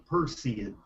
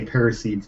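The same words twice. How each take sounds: First: Perseids said as PUR-see-ids; correct pronunciation. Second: Paraseeds said as PAIR-uh-seeds; old pronunciation. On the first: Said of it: "It's pronounced per". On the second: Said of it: "I say Paraseeds". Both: Shown as a demonstration.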